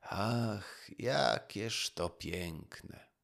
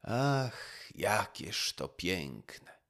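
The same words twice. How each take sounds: First: Slow, hushed sigh of wonder; the fisherman pauses his work and sighs again. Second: Slow, sighing wonder at the song; a fisherman sighs over the beautiful song. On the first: Fisherman repeats it, slow and sighing. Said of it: "znowu powtarzał". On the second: Fisherman sighs, slow and admiring. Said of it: "mówił z westchnieniem". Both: A narrator's reading.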